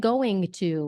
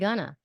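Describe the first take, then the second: First: It is said fully as two words. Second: It is reduced to one short word. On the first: "We don't really say going to" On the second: "We say Ghana right?"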